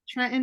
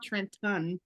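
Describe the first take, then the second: First: The middle T sound is left out. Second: The middle T sound is clearly pronounced. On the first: The speaker calls it right. "when you leave the T out, that's how we do it" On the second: The speaker calls it wrong. "We don't say Trenton"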